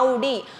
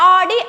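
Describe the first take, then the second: First: The word begins with a gliding 'ow' vowel. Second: The word begins with a plain 'ah' vowel. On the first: This is the original German pronunciation. The speaker calls it right. "దీని original pronunciation ఏంటంటే ఔడీ" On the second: This is how people commonly say it. The speaker calls it wrong. "మనం జనరల్గా అందరం ఆడీ అని పిలుస్తాం"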